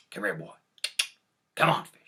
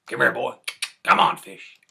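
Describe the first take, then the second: First: Coaxing call, louder on come on fish. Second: Loud high call to the fish. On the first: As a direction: call the fish over gently, then a bit louder. Jack calls the fish over. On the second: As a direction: call him across the yard, loud. Jack calls the fish again. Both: Retold or imitated.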